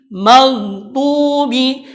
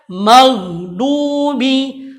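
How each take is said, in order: Both takes have the same delivery.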